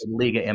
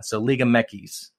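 First: MX is spoken as two English letter names. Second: MX is spoken as one word, Mekis. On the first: "But in English" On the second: "So they call it Mekis"

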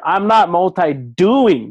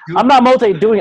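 First: The phrase is said at normal volume. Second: The phrase is said more loudly.

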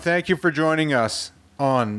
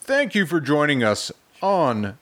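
First: It is said in an ordinary speaking voice. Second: It is said in a put-on radio announcer voice. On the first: The speaker calls it wrong. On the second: The speaker calls it right.

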